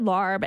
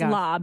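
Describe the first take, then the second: First: The word is said with an R sound. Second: The word is said without an R sound. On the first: The speaker calls it wrong. "I thought it was said larb" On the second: The speaker calls it right. "it's pronounced that way, even though it looks L A R B"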